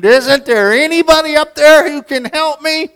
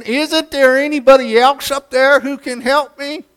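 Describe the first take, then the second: First: High, loud cry for help up to heaven; desperate scream. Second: High, loud scream with a rising end; screaming again. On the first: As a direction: scream it like a man clinging to a gutter. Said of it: "and he screamed". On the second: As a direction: plead once more, voice climbing at the end. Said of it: "screamed again". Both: Retold or imitated.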